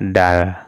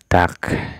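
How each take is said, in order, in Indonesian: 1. Kata ini diakhiri bunyi l. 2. Kata ini diakhiri bunyi k. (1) "Tidak dibaca dal" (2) "maka ini dibacanya tak"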